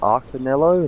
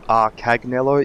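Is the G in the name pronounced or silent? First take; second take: silent; pronounced. First: The G in the name is silent. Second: The G in the name is pronounced. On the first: The speaker calls it wrong. "like a silent G" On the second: The speaker calls it right. "I'm meant to pronounce that G"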